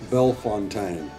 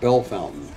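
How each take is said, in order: First: The second part sounds like 'fontaine'. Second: The second part sounds like 'fountain'. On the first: This is how an online pronunciation guide gives it. "on the internet pronunciation thing, it says" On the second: This is how local people say it. "the locals call it"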